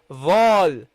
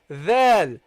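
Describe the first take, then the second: First: The letter is pronounced heavily. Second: The letter is pronounced lightly. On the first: The speaker calls it wrong. "That's a mistake" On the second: The speaker calls it right. "keep it nice and light"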